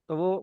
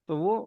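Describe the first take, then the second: The two takes are said the same way.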